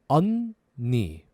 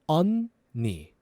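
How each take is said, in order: The two takes are said the same way.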